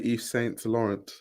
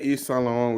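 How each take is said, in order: First: The name is said with English pronunciation. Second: The name is said with French pronunciation. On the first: The speaker calls it wrong. "We don't say" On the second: The speaker calls it right. "We say"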